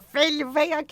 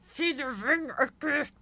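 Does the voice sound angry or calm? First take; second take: angry; calm. First: It is said angrily, with a tight, closed mouth. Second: It is said calmly, with an open mouth. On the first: The mother is angry. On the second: The mother is not upset.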